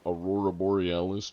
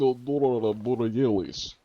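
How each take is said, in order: First: Said in the usual way. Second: Slow, higher, louder mock Russian; comic Russian voice with heavy r sounds; Russian accent. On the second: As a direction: ham it up in a drawn-out Russian accent. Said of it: "started going Russian for that".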